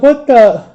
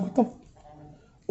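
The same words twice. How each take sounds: First: High, incredulous cut-off exclamation; higher, voiced near-swear; stopped-short curse. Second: Barely voiced, cut-off whisper; stifled near-swear in a whisper; swallowed curse. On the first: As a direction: retell baffled disbelief, pitched up and broken off. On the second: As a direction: mouth the curse under your breath, stop short. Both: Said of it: "I wanted to curse so bad".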